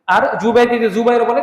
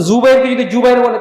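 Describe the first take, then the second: First: প্রথম জুবাইরকে জিম দিয়ে, পরের জুবাইর জা দিয়ে; জুবাইরকে জ-এর মতো, জুবাইর জ়-এর মতো বলুন; উল্টো উচ্চারণ. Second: প্রথম জুবাইরকে জা দিয়ে, পরের জুবাইর জিম দিয়ে; জুবাইরকে জ়-এর মতো, জুবাইর জ-এর মতো বলুন; নামের ভুল উচ্চারণ. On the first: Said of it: "জা দিয়ে". (জিম আর জা উল্টে জুবাইর বলা) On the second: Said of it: "জিম দিয়ে". (জা আর জিমের পার্থক্য দেখিয়ে জুবাইর বলা) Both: Shown as a demonstration.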